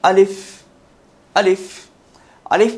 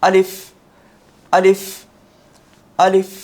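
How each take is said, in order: Both takes have the same delivery.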